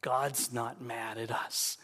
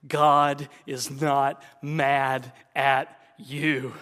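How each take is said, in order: First: Said in the usual way. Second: Slow and louder, each word weighted; slow emphatic. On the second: Real, not acted. Preacher insisting to Christians. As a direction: land every word slowly. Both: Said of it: "hear me loud and clear".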